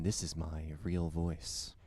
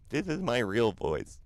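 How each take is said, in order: First: Slow, put-on deep voice, held back; fake low voice. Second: Slow, raised and a bit louder, insisting it's real; mock-insistent protest. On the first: Insisting to Jen it's his real voice, put-on deep and slow. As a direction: sink into a mock deep radio voice. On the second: Answering Jen's teasing chat, mock-insistent and slow. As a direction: protest with wide-eyed mock innocence. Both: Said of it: "Don't put on a fake low voice".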